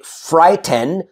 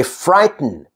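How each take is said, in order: First: Frighten as fright-TEN; over-full second syllable. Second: Frighten as fright-n; vowel-less ending. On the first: Teacher showing what to avoid, frighten with full "ten". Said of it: "I don't say frighten". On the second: Teacher modelling natural speech, frighten with bare N ending. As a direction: drop the vowel in frighten, T straight into N. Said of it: "I say frighten". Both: Shown as a demonstration.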